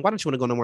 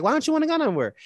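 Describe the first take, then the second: First: Said in the usual way. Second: Pitched way up, baffled; puzzled high question. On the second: Retold or imitated. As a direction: ask it as if you can't believe him. Retelling a drunk argument.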